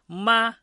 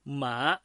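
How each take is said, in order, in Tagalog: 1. Pantay at pareho ang tono. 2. Tumataas ang tono pataas. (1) "nasa unang tono" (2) "nasa pangalawang tono"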